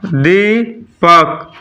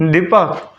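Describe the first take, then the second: First: दीपक very slow, दी then पक; syllable by syllable. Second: Said in the usual way. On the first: Shown as a demonstration. Teacher showing students syllables, दीपक split as दी, पक. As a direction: hold दी, break, then पक. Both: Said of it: "syllable क्या हुआ".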